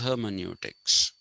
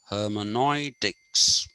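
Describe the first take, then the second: First: The middle vowel sounds like 'yoo'. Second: The middle vowel sounds like 'oi'. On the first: This is the original Greek form. The speaker calls it right. "The original Greek pronunciation" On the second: This is the form that came in through German scholars. The speaker calls it wrong. "through the route of the Germans"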